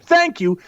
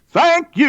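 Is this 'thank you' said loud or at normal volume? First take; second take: normal; loud. First: It is said at a normal, plain volume. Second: It is said louder and with more force.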